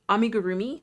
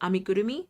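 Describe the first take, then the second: First: It is said with an English-style pronunciation. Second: It is said with a Japanese-style pronunciation. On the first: "There we go. Amigurumi is perfectly fine" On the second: "I'm pretty sure that that's close, at least close to the pronunciation"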